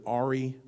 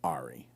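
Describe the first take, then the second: First: "Ari" said the first way, in an everyday voice; first pronunciation. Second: "Ari" said the other way, very low and soft; alternative pronunciation. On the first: Author showing one way to say the name, "Ari" in his usual voice. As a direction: say "Ari" evenly at a normal volume. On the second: Author showing the other way to say the name, "Ari" low and hushed. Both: Shown as a demonstration. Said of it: "I can say it either way".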